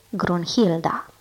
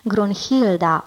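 First: Said in the usual way. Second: Slow, sighing Grunhilda, a touch of longing; sighed. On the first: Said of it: "Grunhilda, oftară fiii". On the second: A narrator's reading. Brothers sighing the maiden's name, slow sighed longing. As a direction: sigh out Grunhilda slowly. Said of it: "oftară fiii în același timp".

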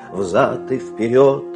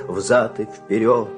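Both takes have the same delivery.

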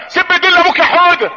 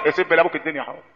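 First: High-pitched, stretched parental coaxing; mock egging-on parent. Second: Low, soft aside; muted disapproving repeat. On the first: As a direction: imitate a parent urging a toddler to curse. Parent eggs on child, mocked. (تقليد تشجيع طفل بصوت عالي الطبقة) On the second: Real, not acted. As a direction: echo it quietly, dropping right down. (تكرار مستنكر بصوت واطي)

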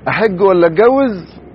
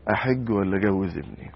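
First: High, loud and slow mock young man; imitating young man. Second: Said in the usual way. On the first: Preacher mimicking a young man torn between pilgrimage and marriage, high and hammed-up. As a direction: ham up his dithering question. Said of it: "اللي قال لنا زمان". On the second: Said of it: "وبعدين يقول".

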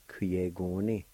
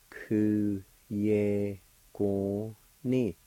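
First: Said in the usual way. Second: Very slow "Ku ye go ni", a pause after each syllable. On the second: Shown as a demonstration. Teacher repeating the word for July, slowly syllable by syllable. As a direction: stretch out Ku, ye, go, ni separately. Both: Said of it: "it's pronounced like this".

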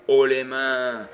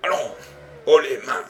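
First: Loud, slow mocking cry; mock shout. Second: Loud, firm order at gunpoint; shouted command. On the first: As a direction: throw haut les mains back at him. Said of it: "C'est moi qui pourrais te crier". (cri moqueur, lent et fort) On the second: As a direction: snap the order again, louder. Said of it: "répéta le détective". (ordre crié, ferme et fort) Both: A narrator's reading.

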